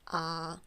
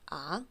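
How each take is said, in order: First: The pitch stays high and level. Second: The pitch rises from low to high. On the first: "It's just a really high and flat tone" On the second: "It goes from down to up, like a question"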